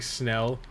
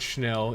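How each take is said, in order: First: The word begins with a plain s sound. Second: The word begins with an sh sound. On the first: This is how it is said in the US. The speaker calls it wrong. "they pronounce it like Snell" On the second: This is the original pronunciation. The speaker calls it right. "and not Schnell"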